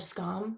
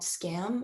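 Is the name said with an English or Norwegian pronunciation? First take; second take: Norwegian; English. First: It is said with a Norwegian pronunciation. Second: It is said with an English pronunciation. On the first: The speaker calls it right. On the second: The speaker calls it wrong.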